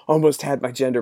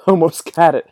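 First: Said in the usual way. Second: Laughing through the words, louder; breaking into laughter as you say it. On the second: Real, not acted. Laughing mid mock chase.

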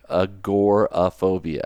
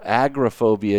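First: Agoraphobia slowly as a-GOR-a-phobia; sounding out the O. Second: Agoraphobia echoed as AG-ra-phobia; imitated mispronunciation. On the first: Shown as a demonstration. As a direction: stretch agoraphobia out, stressing GOR. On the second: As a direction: mimic agoraphobia with AG stressed and no O. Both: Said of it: "there's an O in there".

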